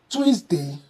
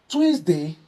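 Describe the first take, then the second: No difference in how they are said.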